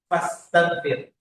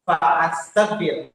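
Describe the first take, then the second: First: Fa runs straight into staghfir without a break. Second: A glottal stop separates fa from astaghfir. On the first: The speaker calls it right. "disambung fa di depannya jadinya fastaghfir" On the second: The speaker calls it wrong. "Jadi tidak kita baca fa astaghfir"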